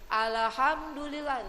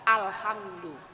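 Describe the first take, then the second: First: A sound in it seems repeated or doubled. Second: The 'al' sound is said cleanly, without repetition. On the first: The speaker calls it wrong. "kayak ada pengulangan" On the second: The speaker calls it right. "alif lam itu harus dibaca jel, jelas"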